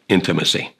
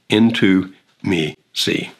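First: It is said as one ordinary word. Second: It is said as three separate words.

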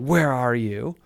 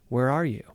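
First: It is yelled in a frustrated, harsh tone. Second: It is asked softly in a warm, caring tone. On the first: A frustrated father is scolding. "Is God this frustrated, concerned father about you? And so he yells out" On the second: A loving father wants closeness. "this loving father who wants a deeper relationship with you ... just simply asks the question"

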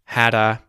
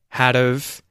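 First: The words merge into one with a final 'a'. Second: The second word is reduced to a weak 'of'. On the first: "or hadda" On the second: "when you contract had, have, it often becomes had of"

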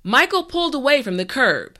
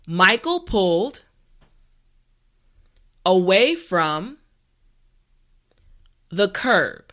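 First: The sentence is spoken at a natural speed. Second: The sentence is spoken slowly and carefully. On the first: "the last time at a regular pace" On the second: "this time repeat after me"

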